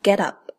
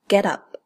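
First: The two words are linked together. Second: The two words are linked together.

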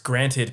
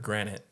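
First: The word ends with a clear t-e-d. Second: The word ends loosely, sounding like granite. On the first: The speaker calls it right. "It's granted, people" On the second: The speaker calls it wrong. "I just realized I did something that I hate when other people do"

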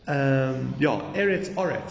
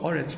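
First: The first vowel sounds like 'e'. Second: The first vowel sounds like 'o'. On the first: "maybe it should be eretz" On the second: "Sometimes we pronounce it oretz even though it's written eretz"

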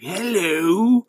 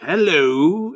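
First: It is said in a crazy, demonic voice. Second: It is said in a normal voice.

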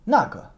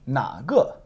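First: It is said as an answer. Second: It is said as a question. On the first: It points out that one. "You answer that one" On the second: It asks which one. "It's a question. It means which"

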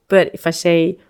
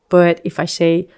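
Both takes have the same delivery.

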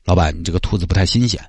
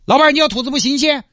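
First: It is said quietly with a lowered voice. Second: It is said loudly and angrily.

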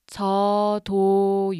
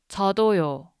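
First: It is said slowly. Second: It is said fast.

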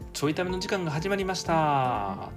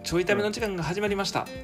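First: The final syllable is stretched out long. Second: The final syllable is short and casual. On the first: It sounds formal, not like his normal self. The speaker calls it wrong. "たーって言わへんのよ" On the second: This is how he naturally talks. The speaker calls it right. "ちょいための時間が始まりましたやったら言うけど"

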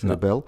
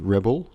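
First: The word is pronounced the Dutch way. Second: The word is pronounced the English way. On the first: The speaker calls it right. "Dus echt Nederlands" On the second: The speaker calls it wrong. "niet Rebel"

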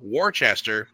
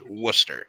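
First: Every written syllable of the word is sounded. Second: The word is shortened to two syllables. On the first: This is how the name is written. "It's spelled Worcester" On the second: This is how the name is actually said. "but it's pronounced Worcester"

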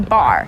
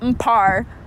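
First: It begins with a single plain B sound. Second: It begins with a separate M then P sound. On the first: The speaker calls it right. "you just say bar" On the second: The speaker calls it wrong. "technically spelled"

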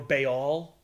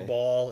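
First: The name sounds different from the word ball. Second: The name sounds just like the word ball. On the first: "I like pronouncing it Baal because it sounds different than just Ball" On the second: "just Ball"

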